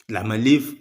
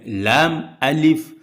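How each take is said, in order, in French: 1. Les deux parties sont enchaînées en une seule. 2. Les deux parties sont gardées clairement séparées. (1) "on sent qu'il s'agit d'une lettre" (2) "c'est effectivement les lettres lam et alif"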